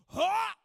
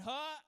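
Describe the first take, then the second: First: Sharp loud pained grunt; a big overdone cry of pain. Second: Mild grunt, held back; a gentle little huff; small grunt. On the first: Pastor showing how to react when struck, loud grunt. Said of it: "You just gotta kinda go like". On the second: The grunt he was expected to give, held back. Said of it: "instead of going". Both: Shown as a demonstration.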